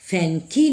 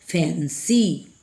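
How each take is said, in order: First: The middle consonant is a k sound. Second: The middle consonant is an s sound. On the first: The speaker calls it wrong. "फैंकी नहीं बोला जाएगा" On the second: The speaker calls it right. "बल्कि बोला जाएगा फैंसी"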